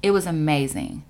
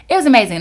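First: Said in the usual way. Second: Higher and louder, gushing; excited. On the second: Shown as a demonstration. Telling viewers about Baltimore, gushing and louder. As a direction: repeat it with real excitement.

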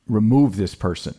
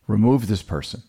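No difference in how they are said.

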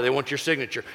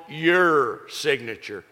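First: Said in the usual way. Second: Your signature drawn out slowly, each word weighed; slow, weighty stress on Your. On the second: Shown as a demonstration. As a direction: lean hard on Your, then let signature fall. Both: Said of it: "you know what they want?".

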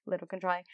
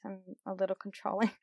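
First: Little controlling said softly through a laugh; laughing repeat. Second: Little leaned on, said fast; stress on little. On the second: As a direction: lean on the word little to soften it. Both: Shown as a demonstration. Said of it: "Let me say little just to make myself feel better".

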